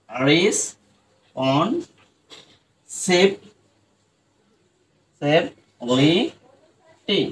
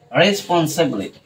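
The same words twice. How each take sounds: First: রেসপন্সিবিলিটি drawn out, each syllable separate and soft; slow broken-up responsibility. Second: Said in the usual way. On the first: Shown as a demonstration. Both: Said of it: "এরপর এটা দেখো".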